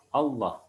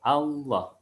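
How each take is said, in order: First: "Allah" with its first A rounded to O; faulty rounded first vowel in "Allah"; mispronounced opening vowel. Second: "Allah" starting on a clear, open A; careful "Allah" with an unrounded first vowel; correct open A. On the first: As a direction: start "Allah" on an O sound, as in "Olloh". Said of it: "biasanya berubah menjadi". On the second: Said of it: "Harusnya a". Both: Shown as a demonstration.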